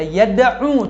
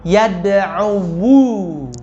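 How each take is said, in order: First: The word ends without a vowel after the w. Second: The word ends with an extra u after the w. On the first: The speaker calls it right. "kita bukan baca yad'u" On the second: The speaker calls it wrong. "kalau kita membacanya lafzan ... tetapi yad'u"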